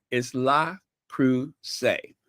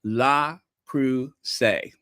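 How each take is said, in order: First: "La Creuset" slowly, lɑ kʁuzé, stress on La; correct French name. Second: "Le Creuset" very slow, lɑ-kʁu-zé drawn out; slow teaching repeat. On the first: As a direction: slowly model the right French way. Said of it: "It's French". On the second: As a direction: drill it slowly for viewers to repeat. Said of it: "say it with me". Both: Shown as a demonstration.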